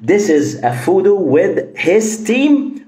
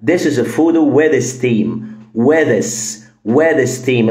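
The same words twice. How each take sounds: First: His with a full H; slow with his team; careful. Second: With his team sounds like with steam; with-is-team run together; dropped H. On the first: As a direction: pronounce his with a clear H. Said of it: "ولا". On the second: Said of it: "ال H ... مش موجودة". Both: Shown as a demonstration.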